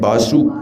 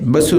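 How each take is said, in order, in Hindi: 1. पहला स्वर लंबा है। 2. पहला स्वर छोटा है। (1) "वासु दीर्घ है" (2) "बसु नहीं"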